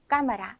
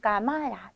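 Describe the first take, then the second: First: The stress falls before the second-to-last syllable. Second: The stress is on the second-to-last syllable. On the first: The speaker calls it right. "까마라 라고 읽어주기 원하는 것이므로 그 자리에 그대로 강세를 넣어서" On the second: The speaker calls it wrong. "규칙적으로 우리가 이 단어를 강세를 넣어줬다면 까마라 두 번째 단어에 뒤에서 두 번째 단어에 강세가 있어야 합니다"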